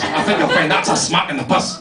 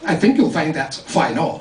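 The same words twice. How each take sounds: First: Mocking echo in a Dundee accent; Dundee retort. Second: Put-on English-accented schoolboy correcting grammar. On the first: Wee boy retorting after a smack, mocking Dundee accent. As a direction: throw the correction back in Dundee patois. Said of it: "Smack me across the face". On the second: English boy correcting playmates' speech, correcting English accent. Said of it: "I used to correct their English".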